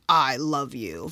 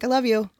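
First: It is said in a serious, intent tone. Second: It is said in a light, offhand tone.

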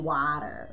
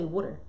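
First: The first vowel sounds like 'wah'. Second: The first vowel sounds like 'wood'. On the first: This is how another person says it. "She say water" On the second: This is how the speaker's own group says it. "We say water. Like W O O D E R"

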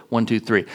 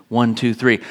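No difference in how they are said.

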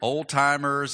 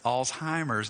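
First: It begins with 'old' and has a 't' sound. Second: It begins with 'alts' and has no 't' sound. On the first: The speaker calls it wrong. "I hear old-timers" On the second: The speaker calls it right. "It's Alzheimer's disease"

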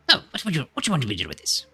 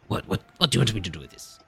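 First: It is said in Griswold's character voice. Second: It is said in a voice not Griswold's.

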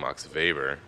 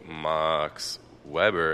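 First: Weber begins with a V sound. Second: Weber begins with a W sound. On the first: The speaker calls it right. "it's actually Max Weber because the V. W is a V" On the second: The speaker calls it wrong. "when you look at Max Weber"

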